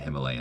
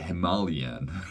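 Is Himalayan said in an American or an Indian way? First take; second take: American; Indian. First: The word is said in an American way. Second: The word is said in an Indian way. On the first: "the same way that I say Himalayan" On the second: "They say Himalayan or whatever"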